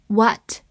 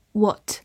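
First: American "what" with an open unrounded vowel; American accent. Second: "What" British-style, like wot; British accent. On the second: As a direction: give "What" its British rounded vowel. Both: Shown as a demonstration. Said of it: "美式发音".

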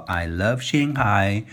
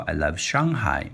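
First: Slow, with Shanghai said the English way and no tones. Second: Shanghai with Mandarin sh and tones, falling at the end. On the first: Teacher shows the English reading of Shanghai, slow. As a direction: say I love Shanghai slowly as an English phrase. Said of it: "你可以说". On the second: Teacher shows the Chinese reading of Shanghai. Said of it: "你也可以说". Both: Shown as a demonstration.

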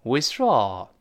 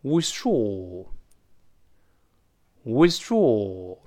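First: "withdraw" with the American sigh-like ah in draw; American pronunciation. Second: "withdraw" with a British open o in draw, said very slowly; "withdraw" stretched out slowly, British vowel in draw; British pronunciation. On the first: Teacher demonstrates the American pronunciation of the word. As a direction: say "withdraw" the American way, open ah sound. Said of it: "我们再读一下美音". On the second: Teacher demonstrates the British pronunciation slowly. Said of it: "我们读一下英式发音". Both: Shown as a demonstration.

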